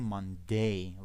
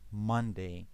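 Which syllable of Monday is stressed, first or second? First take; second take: second; first. First: The stress is on the second syllable. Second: The stress is on the first syllable. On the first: The speaker calls it wrong. "We don't say Monday like a strong day" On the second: The speaker calls it right. "the stress is on the first syllable"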